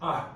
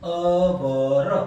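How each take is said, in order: First: It is one syllable, like are. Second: It starts with a vowel, two syllables. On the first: The speaker calls it right. "It's cold properly આર" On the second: The speaker calls it wrong. "અવર પણ નથી"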